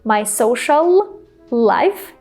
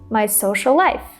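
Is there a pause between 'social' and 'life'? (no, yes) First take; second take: yes; no. First: A pause separates social and life. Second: Social and life run together without a pause. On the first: The speaker calls it wrong. "You don't need to say" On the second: The speaker calls it right. "Just say"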